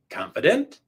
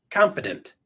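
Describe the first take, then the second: First: "Confident" rising like a question; going up. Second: "Confident" low with a firm fall; dropped down. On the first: Coach showing what to avoid, "Confident" going up. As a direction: lift the end of "Confident" as if unsure. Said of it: "If you go up". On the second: Coach showing assured delivery, "Confident" going down. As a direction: drop "Confident" down like a full stop. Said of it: "Drop it down". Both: Shown as a demonstration.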